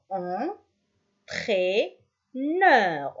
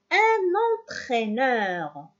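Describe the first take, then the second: First: "Entraîneur" very slowly as en, traî, neur; very slow syllable count on "Entraîneur"; split into syllables. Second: Said in the usual way. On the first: Shown as a demonstration. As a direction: leave long pauses inside "Entraîneur". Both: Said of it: "On a trois".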